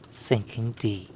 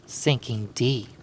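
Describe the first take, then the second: No difference in how they are said.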